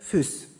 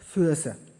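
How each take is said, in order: First: The vowel is a single long ü. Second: The first vowel is a gliding diphthong üe. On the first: This is the Rhine Franconian-Hessian form. "Auch im Rheinfränkisch-Hessischen spricht man diese einzelnen Vokale" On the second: This is the older or East Franconian form. "Die wurden im Mittelhochdeutschen auch noch so ausgesprochen"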